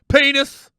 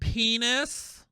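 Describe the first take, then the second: First: The word is said in a plain masculine voice. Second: The word is said in a slightly feminine voice.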